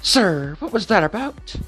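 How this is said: It is said in a put-on Happy voice.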